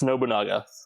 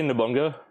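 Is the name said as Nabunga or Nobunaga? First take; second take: Nobunaga; Nabunga. First: The name is said as Nobunaga. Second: The name is said as Nabunga. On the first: The speaker calls it right. "but it's Nobunaga" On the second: The speaker calls it wrong. "did you say Nabunga?"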